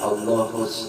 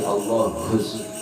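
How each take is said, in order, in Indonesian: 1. Bunyi h itu ringan dan lemah. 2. Bunyi h itu berat dan dihembuskan kuat. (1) "Bukan Allahus" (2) "Ha besar"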